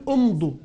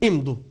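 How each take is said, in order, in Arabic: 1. تبدأ الكلمة بحركة 'u'. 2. تبدأ الكلمة بحركة 'i'. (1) "ما بقول امضوا" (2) "بقول امضوا"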